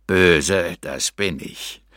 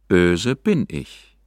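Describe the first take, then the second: First: Lower, slow demonic voice; infernal voice. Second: Calm, slow ordinary voice; calm sad confession. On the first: Pretend. Narrator posing as a demon to the hermit, lower, slow infernal voice. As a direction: menace him like a demon from hell. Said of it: "in einem Tonfall, welcher wahrlich aus infernalischen Gefilden". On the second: A narrator's reading. Narrator confessing to the hermit, calm slow ordinary voice. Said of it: "doch nun ruhig in meiner gewöhnlichen Stimme".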